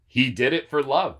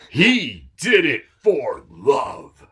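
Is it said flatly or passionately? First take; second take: flatly; passionately. First: It is said flatly, without passion. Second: It is said with great passion.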